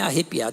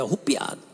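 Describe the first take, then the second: First: The vowel after the first R sounds like 'e'. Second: The vowel after the first R sounds like 'u'. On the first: This is the standard form. "nem é arrepiado" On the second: This is how people commonly say it. "Como as pessoas falam"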